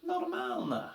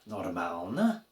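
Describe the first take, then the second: First: "Normalne" as a reply, pitch falling at the end; statement intonation. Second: "Normalne" asked, pitch climbing on the last syllable; question intonation. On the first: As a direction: answer with "Normalne" as a statement, the voice dropping on the last syllable. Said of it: "they might reply to you". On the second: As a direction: ask "Normalne" as a question, starting low and rising at the end. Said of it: "or you would ask them". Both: Shown as a demonstration.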